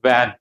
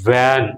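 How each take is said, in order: First: The first sound is made with rounded lips. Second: The first sound presses teeth on the lip. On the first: The speaker calls it wrong. "It's not just pronounced as వ్యాన్" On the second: The speaker calls it right. "It should be pronounced as వ్యాన్"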